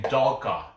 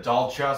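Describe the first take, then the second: First: "Dalka" as DAHL-kah, k rather than ch; hard-k pronunciation. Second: "Dalcha" as DAHL-chah, ch rather than k; ch pronunciation. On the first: Quoting another predictor's way of saying the name, hard-k "Dalka". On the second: Correcting to the other version of the name, ch in "Dalcha". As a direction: say "Dalcha" with a ch in the middle. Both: Shown as a demonstration. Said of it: "I don't know how you say it".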